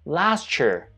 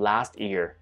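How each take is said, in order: First: The t and y merge into a ch sound. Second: The t and y sounds stay separate. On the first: "라고 발음한 사람도 제법 있습니다" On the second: "익숙하시죠?"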